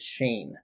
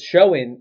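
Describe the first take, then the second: First: The vowel sounds like the one in rain. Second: The vowel sounds like the one in go. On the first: The speaker calls it right. "but you say it Shane" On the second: The speaker calls it wrong. "Shoen is what everybody's been saying"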